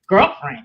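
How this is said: It is said in a flat, stern tone. The remark is a cold rejection. The speaker calls it wrong. "She was dead serious"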